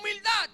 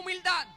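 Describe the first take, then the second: First: The word is said loudly and forcefully. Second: The word is said at normal, softer volume.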